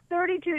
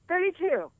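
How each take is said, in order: First: Said in the usual way. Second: Thirty-two repeated higher, in disbelief; stress on thirty-two. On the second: Shown as a demonstration. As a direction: punch Thirty-two up high like you can't believe it.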